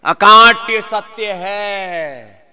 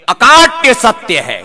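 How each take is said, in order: First: "अकाट्य सत्य है" very slow, each word drawn out; slow, drawn-out "अकाट्य" for students to echo; slow emphatic repeat. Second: "अकाट्य" stressed, louder, a bit slow; "अकाट्य सत्य है" with loud weight on अकाट्य; firm statement. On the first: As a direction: stretch "अकाट्य सत्य है" out slowly for the class to repeat. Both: Shown as a demonstration. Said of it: "क्या है? बोलो।".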